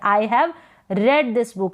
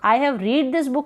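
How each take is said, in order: First: 'Read' has a short 'e' vowel. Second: 'Read' has a long 'ee' vowel. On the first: The speaker calls it right. "इसको हम रेड पढ़ेंगे" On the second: The speaker calls it wrong. "नहीं बोलेंगे"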